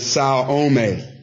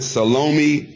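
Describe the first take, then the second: First: The name does not sound like salami. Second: The name sounds much like the word salami. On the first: The speaker calls it right. "But the pronunciation is Salome" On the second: The speaker calls it wrong. "many of us pronounce it Salome. Sounds a lot like salami to me"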